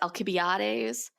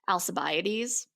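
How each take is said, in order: First: The name is said with a Greek pronunciation. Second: The name is said with an English pronunciation. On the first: "the Greek way is" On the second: "most people pronounce it"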